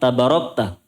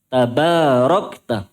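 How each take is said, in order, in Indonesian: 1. Suku kata kedua memiliki vokal pendek. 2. Suku kata kedua memiliki vokal panjang. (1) "Bukan begitu" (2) "Ba-nya juga panjang"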